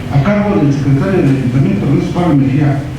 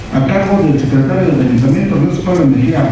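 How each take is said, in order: No difference in how they are said.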